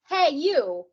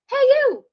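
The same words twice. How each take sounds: First: It is spoken in a lower chest voice. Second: It is spoken in a higher head voice. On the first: "I'm speaking from my chest" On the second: "I'm speaking from my head"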